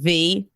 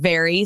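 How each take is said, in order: First: The word is cut short to one syllable. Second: The word is said in full, two syllables. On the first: The speaker calls it wrong. "saying V" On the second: The speaker calls it right. "instead of saying very"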